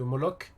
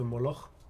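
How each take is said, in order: First: It is pronounced with French sounds. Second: It is pronounced with Dutch sounds. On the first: This version sounds dull. The speaker calls it wrong. "c'est quand même nul" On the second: This version sounds stylish. The speaker calls it right. "directement, c'est stylé"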